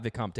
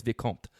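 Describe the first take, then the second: First: "Vicomte" with an extra "tay" at the end; mispronounced "Vicomte", ending "com-tay"; wrong pronunciation. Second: "Vicomte" with a silent final e; corrected French "Vicomte", one closing syllable "comt"; correct French pronunciation. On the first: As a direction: sound the final e of "Vicomte" as "ay". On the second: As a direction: say "Vicomte" ending on the t sound. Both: Shown as a demonstration. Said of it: "It's not Vicomte, it's Vicomte".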